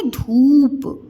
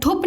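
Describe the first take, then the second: First: धूप with the ऊ stretched out slowly; long ऊ. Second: धूप with a short u, like धुप, higher; short wrong vowel. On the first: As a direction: hold the vowel of धूप long before the प. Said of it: "क्या है ये?". (धूप में लंबा ऊ खींचकर) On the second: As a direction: cut the long ऊ in धूप down to a quick u. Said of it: "धूप नहीं है". (धूप को छोटे उ से, धुप जैसा) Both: Shown as a demonstration.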